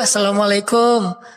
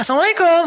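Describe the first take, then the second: First: It is said in a pitiful, mournful tone. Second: It is said in a lively, excited tone.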